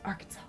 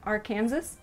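First: The ending does not sound like Kansas. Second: The ending sounds like the word Kansas. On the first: The speaker calls it right. "It's not. It's Arkansas" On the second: The speaker calls it wrong. "I used to pronounce it Arkansas because it has the word Kansas in it"

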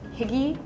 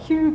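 First: The word is read out as English spelling. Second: The word is said with Danish-style vowels. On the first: "It's like higgy" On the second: "like she says in Danish, it's like hygge"

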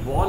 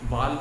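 First: The vowel is a rounded 'aw'. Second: The vowel is a plain open 'aa'. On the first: The speaker calls it right. "बॉल होता है" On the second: The speaker calls it wrong. "बाल नहीं"

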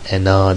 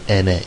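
First: The word ends with an open 'a' vowel. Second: The word ends with a front 'e' vowel. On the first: The speaker calls it wrong. "Ena değil" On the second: The speaker calls it right. "ene diye okunur"

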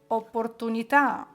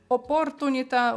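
First: The stress falls on the final syllable. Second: The stress falls before the final syllable. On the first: The speaker calls it right. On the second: The speaker calls it wrong.

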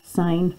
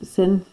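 First: The vowel is long, as in 'fine'. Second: The vowel is short, as in 'tin'. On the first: The speaker calls it right. "So we still say sine, even though it looks like sin" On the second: The speaker calls it wrong. "Don't let me hear any of you saying sin. You don't sound like a mathematician then"

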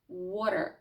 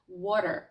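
No difference in how they are said.

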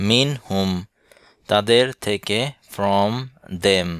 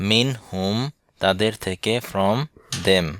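The two takes are said the same way.

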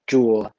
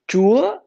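First: The pitch falls low across the syllable. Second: The pitch rises high across the syllable. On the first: It means a Buddhist pagoda. "it means a Buddhist pagoda" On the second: It means God. "it's mean God"

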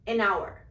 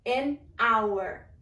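First: It is said quickly, the words run together. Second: It is said at a normal, unhurried speed.

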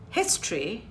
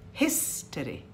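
First: The middle vowel is dropped. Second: The middle vowel is clearly pronounced. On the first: The speaker calls it wrong. "I'm also being inarticulate" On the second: The speaker calls it right. "I must say history"

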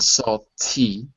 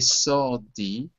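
First: The t is a clear t sound. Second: The t sounds like a soft d. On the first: This is not the American way of saying it. "not salty" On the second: This is the American way of saying it. "Notice that I say salty, ... They're all D's"

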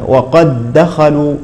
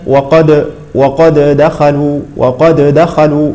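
First: The first d merges into the second d. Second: The first d is released with an echoing bounce. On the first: The speaker calls it right. "الدال الأولى تدغم في الثانية" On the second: The speaker calls it wrong. "فلا نقول مثلا وقد دخلوا، لا"

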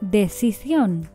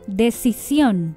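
First: The c is sounded like th. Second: The c is sounded like s. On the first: "Sin ceseo" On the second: "con ceseo"

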